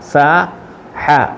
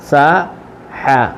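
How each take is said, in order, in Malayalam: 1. ഈ അക്ഷരങ്ങൾ സാവധാനത്തിൽ, അവയ്ക്കിടയിൽ ഒരു ഇടവേളയോടെയാണ് പറയുന്നത്. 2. ഈ അക്ഷരങ്ങൾ സാവധാനത്തിൽ, അവയ്ക്കിടയിൽ ഒരു ഇടവേളയോടെയാണ് പറയുന്നത്.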